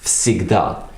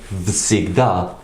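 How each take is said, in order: First: The word starts with a voiceless f sound. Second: The word starts with a voiced v sound. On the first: The speaker calls it right. "spoken всегда" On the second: The speaker calls it wrong. "it's spelt like всегда"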